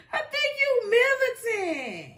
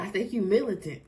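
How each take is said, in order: First: High, slow squeal through laughter; high-pitched, laughter-squeezed accusation; laughing disbelief. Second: Said in the usual way. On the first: Real, not acted. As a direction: draw it out while cracking up. Repeats it while cracking up.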